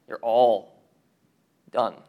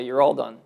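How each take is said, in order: First: ALL stressed, a pause, then DONE; "You're ALL ... done", DONE set apart as final; spaced-out repeat. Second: Said in the usual way. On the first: Acted. Preacher voicing God's verdict on sinners, spaced out with a pause before DONE.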